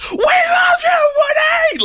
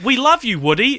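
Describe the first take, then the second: First: It is yelled loudly after someone. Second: It is said flatly, without yelling.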